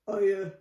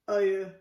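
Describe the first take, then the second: First: It is said in a very deep voice. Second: It is said in a very deep voice.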